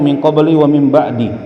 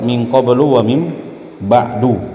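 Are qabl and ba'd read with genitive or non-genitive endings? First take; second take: genitive; non-genitive. First: Qabl and ba'd carry genitive case endings. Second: Qabl and ba'd carry non-genitive endings. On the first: This is a less common reading by some scholars. "Dibaca majrur karena ada huruf jarnya di situ" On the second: This is the well-known standard reading. "bacaan kita yang ma'ruf"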